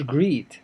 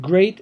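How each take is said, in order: First: "greet" with a long 'ee' vowel; mispronunciation shown. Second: GREAT with an 'ay' vowel, not 'ee'; correct English pronunciation. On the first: Teacher showing learners the mistake for great, mispronounced greet. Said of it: "ما اسمهاش greet". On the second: Teacher showing learners how great is said, correct pronunciation. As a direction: say "great" to rhyme with late. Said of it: "كلمة great ما اسمهاش greet". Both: Shown as a demonstration.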